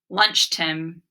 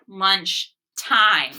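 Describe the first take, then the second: First: The vowel in the second word is short. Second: The vowel in the second word is long. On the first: The speaker calls it wrong. "Lunch Tim? Stop and reread" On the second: The speaker calls it right. "I also tried that other vowel sound"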